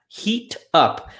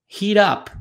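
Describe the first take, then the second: First: The two words are said slowly and separately. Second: The two words are said fast and run together.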